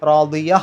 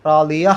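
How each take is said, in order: Both takes have the same delivery.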